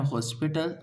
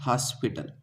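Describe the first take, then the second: First: हॉस्पिटल with a rounded o, like "hospital"; wrong way. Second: हॉस्पिटल with an open a, like "haspital"; right way. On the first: Teacher showing students the wrong reading: हॉस्पिटल with a rounded o. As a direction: say हॉस्पिटल with a round o in the first syllable. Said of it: "जो कि गलत है". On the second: Teacher giving students the correct reading: हॉस्पिटल said "haspital". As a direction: open the first vowel of हॉस्पिटल to a. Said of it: "इसे क्या पढ़ा जाता है". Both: Shown as a demonstration.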